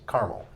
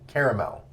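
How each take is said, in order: First: The word is said with two syllables. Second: The word is said with three syllables. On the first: The product name is spelled with one A. "if they only spell it with one A" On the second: The product name is spelled with two A's. "If it's two A's"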